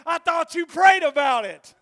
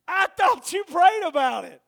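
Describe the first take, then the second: First: Higher, much louder retort; a shouted echo of the wife; wife's retort. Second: Higher, much louder; shouted repeat. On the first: Wife answering her husband, higher and louder. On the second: Preacher repeating the wife to the crowd, shouting. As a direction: drive the wife's words home. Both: Retold or imitated.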